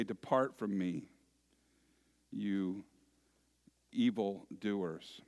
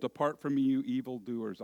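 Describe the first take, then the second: First: Stern master. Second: Said in the usual way. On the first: Acted. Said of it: "he will say". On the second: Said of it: "They've just been told".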